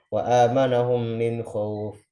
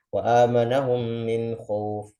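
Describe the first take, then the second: No difference in how they are said.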